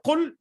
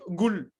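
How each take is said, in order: First: It starts with a deep throat q sound. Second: It starts with a hard g sound. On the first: "au lieu de dire qul" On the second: "au Yémen... on dit gul"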